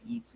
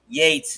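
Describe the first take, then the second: First: The name does not rhyme with Bates. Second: The name rhymes with Bates. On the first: This is how Americans say it. "we say Yeats or whatever" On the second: This is how the Irish say it. "Yates as in Bates. That's how they see it"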